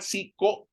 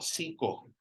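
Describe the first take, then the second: First: The final o sounds hard. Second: The final o sounds soft. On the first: The speaker calls it wrong. "this one is not siko" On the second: The speaker calls it right. "It's soft o"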